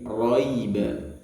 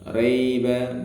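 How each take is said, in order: First: The first vowel sounds heavy, like 'o'. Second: The first vowel sounds light, like 'a'. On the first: The speaker calls it right. "tapi roiba" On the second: The speaker calls it wrong. "bukan raiba"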